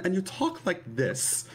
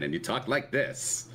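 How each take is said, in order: First: High put-on Mid-Atlantic lady voice; Mid-Atlantic accent, woman's version. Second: Lightly drawled Mid-Atlantic man; Mid-Atlantic accent, man's version. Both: Shown as a demonstration. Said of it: "the Mid-Atlantic accent is something that changes if you're a woman".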